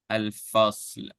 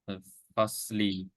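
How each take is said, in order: First: The word ends on a lightly sounded 'l'. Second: The word ends with a short 'i' vowel. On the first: The reading stops at this word. "if we want to stop ... we merge little bit of the sound" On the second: The reading continues past this word. "because it has the vowel, right? The the lower vowel. So we have to pronounce the li"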